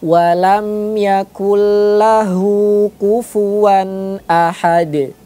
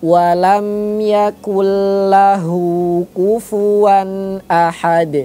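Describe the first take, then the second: First: The n merges fully into the l sound. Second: The n merges fully into the l sound.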